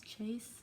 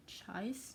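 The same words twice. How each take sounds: First: "chaise," said to rhyme with "face"; second-guess pronunciation. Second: "chaise," said to rhyme with "ice"; unsure pronunciation. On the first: Reader guessing at an unknown word, "chaise," rhymed with "face". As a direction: try "chaise," with a long a vowel. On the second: Reader guessing at an unknown word, "chaise," rhymed with "ice". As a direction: try "chaise," with a long i vowel, unsure. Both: Shown as a demonstration. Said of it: "I don't know how to say that".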